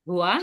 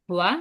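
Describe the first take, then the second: No difference in how they are said.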